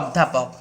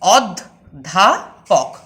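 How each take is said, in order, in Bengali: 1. শব্দটি সাবলীলভাবে একটানে বলা হয়। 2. শব্দটি তিনটি আলাদা দলে ভাগ করা হয়।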